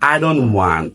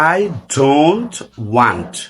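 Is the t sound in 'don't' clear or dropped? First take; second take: dropped; clear. First: It is said quickly with the t dropped. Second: It is said slowly with a clear t.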